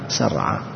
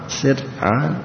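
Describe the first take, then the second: First: The first syllable has the vowel u. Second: The first syllable has the vowel i. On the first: "وضمها" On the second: "وكسرها"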